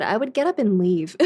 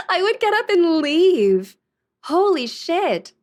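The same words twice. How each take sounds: First: Said in the usual way. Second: Laughing through the words, higher and louder. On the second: Real, not acted. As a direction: say it again while cracking up.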